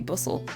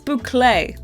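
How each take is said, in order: First: It is said like the word bustle. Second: It is said like boo-clay, with a k. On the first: The speaker calls it wrong. "don't say bustle" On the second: The speaker calls it right. "It's boucle"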